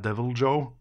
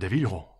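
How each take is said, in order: First: The 'jo' is said with a J sound. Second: The 'jo' is said with an H sound. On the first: "eller om det er Devil Joe" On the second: "jeg ser for meg noen spansk, jeg. Sånn Devil H"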